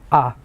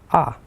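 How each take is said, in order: The two takes are said the same way.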